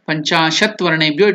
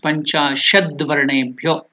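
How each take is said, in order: First: The first word ends in a t sound. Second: The first word ends in a d sound. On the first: The words are taken separately. "When you join together" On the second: The words are joined together. "it becomes Panchashad Varnebhyo"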